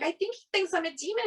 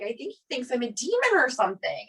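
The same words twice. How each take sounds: First: Higher, faster insistent repeat; telling the husband a second time, higher and faster; exasperated repeat. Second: Said in the usual way. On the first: Retold or imitated. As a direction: press the point, incredulous.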